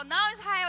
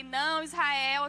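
First: Louder "Não, Israel", called out across the room; calling from afar. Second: Slow, louder firm "Não, Israel" with NÃO drawn out; a slow stern warning, "Não" stretched long. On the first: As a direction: call the warning to a baby out of reach. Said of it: "Quando eu tô longe, eu falo". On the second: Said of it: "eu fiquei". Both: Shown as a demonstration.

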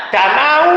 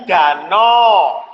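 First: "Danau" dengan bunyi akhir "au" penuh, naik; diftong utuh. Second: "danau" diucapkan "dano", o dipanjangkan; diftong diluruskan. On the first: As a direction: ucapkan "Danau" persis ejaannya. ("Danau" harfiah, a-u terdengar jelas) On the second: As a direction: luruskan "au" pada "danau" menjadi "o". ("danau" pelan dengan akhir "-no") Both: Shown as a demonstration. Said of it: "menjadi danau".

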